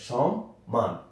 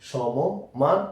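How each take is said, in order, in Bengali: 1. শব্দের মাঝখানে একটু থামা আছে। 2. শব্দটি একটুও না থেমে চলে যায়। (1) "এভাবে পড়তে হবে" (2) "এভাবে নয়"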